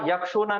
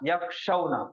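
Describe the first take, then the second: First: The middle vowel is a long u sound. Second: The middle vowel is the diphthong aw. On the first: The speaker calls it wrong. "यक्षुना नहीं" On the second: The speaker calls it right. "जबर है"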